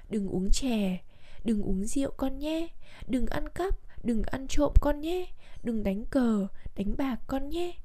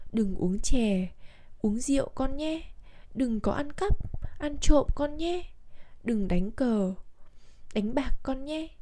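First: Each ban whole, đừng uống rượu con nhé said as one phrase; phrase each đừng as its own full ban; correct phrasing. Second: Pauses fall after chè, cờ and cắp, so each ban splits in two; phrase it wrongly, đừng uống chè then pause, uống rượu con nhé; broken phrasing. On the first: The father's real last words, correctly phrased. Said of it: "Vốn lời dặn của cha là". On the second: Dying father's broken last words, wrongly phrased. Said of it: "lời trăng chối của người cha bị đứt quãng". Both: Shown as a demonstration.

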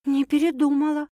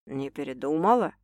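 First: High, steady woman's answer; earnest assurance, pitch raised; serious. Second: Low, softer male question; low tentative enquiry; man asking. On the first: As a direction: answer firmly, as a settled fact. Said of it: "серьёзно ответила Саша". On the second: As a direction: ask her gently, pitched down. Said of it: "вдруг спросил любимый шеф". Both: A narrator's reading.

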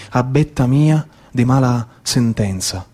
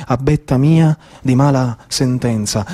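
No difference in how they are said.

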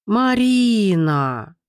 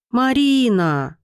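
First: Slow drawn-out howl of a name; протяжный вой. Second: Slow squeaky plea, higher; писк. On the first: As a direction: wail it long and slow. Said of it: "провыла". (протяжно провыть) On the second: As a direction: squeak the name out slowly. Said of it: "пищала". (жалобно пищать) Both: A narrator's reading.

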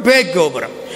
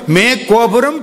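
First: "பே கோபுரம்" starting with a crisp p sound; "பே" ப ஒலியுடன்; pey with P. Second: "மே கோபுரம்" starting with a clear m sound; "மே" ம ஒலியுடன்; mey with M. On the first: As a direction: say "பே" with a popped p. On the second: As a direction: say "மே" with lips closed for m. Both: Shown as a demonstration. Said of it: "மே, பே மாறி".

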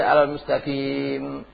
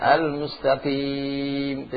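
First: Al-mustaqim sung with a voiced vowel at the end; wrong stop. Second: Al-mustaqim drawn out very slowly, ending with a silent m; correct stop. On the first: Teacher shows the forbidden reading, chanted wrong example. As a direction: chant al-mustaqim, letting the final vowel sound. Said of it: "Tidak boleh". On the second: Teacher models the correct stop, slow chanted recitation. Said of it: "Tidak boleh al-mustaqim". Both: Shown as a demonstration.

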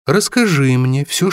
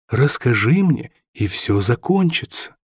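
First: Measured threat, stressing расскажи; slow menacing demand. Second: Repeated demand. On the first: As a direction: lean on the first word, coldly. Villain interrogates Robin. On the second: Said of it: "повторил Стерлинг". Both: A narrator's reading.

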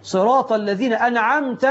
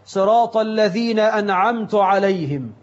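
First: أنعمت with an a ending, "You bestowed"; correct vowel. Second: أنعمت with a u ending, "I bestowed"; wrong vowel. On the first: Preacher giving the correct أنعمت to the congregation. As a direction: end أنعمت on a clear short a, an'amta. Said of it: "أنت يا الله". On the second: Preacher imitating a wrong reading of أنعمت. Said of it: "أنعمت عليهم؟ هو أنت اللي أنعمت؟". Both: Shown as a demonstration.

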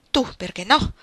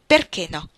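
First: Sharp retort rising on "no". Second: Probing, with the weight on "Perché" and the tune falling; inquisitorial. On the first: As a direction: snap back at him, "perché no?" lifting up. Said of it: "lo rimbeccò". (ribattuta secca, "no" in salita) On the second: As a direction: press him, lean on "Perché". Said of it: "ripeté lei in tono inquisitorio". (tono inquisitorio, accento su "Perché" e tono discendente) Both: A narrator's reading.

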